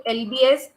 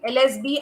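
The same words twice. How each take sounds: First: Letters said as L B S; L B S, letters in the wrong order; slip of the tongue. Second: Letters said as L S B; L S B, corrected letter order; self-correction. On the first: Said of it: "sorry, L S B". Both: Real, not acted.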